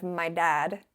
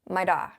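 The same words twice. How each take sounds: First: Said in the usual way. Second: Irish "my da", no final d. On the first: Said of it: "instead of". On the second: Shown as a demonstration. Showing how the Irish say "dad". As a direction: drop the final d on "da". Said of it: "they do say".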